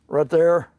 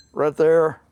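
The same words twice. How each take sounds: The two takes are said the same way.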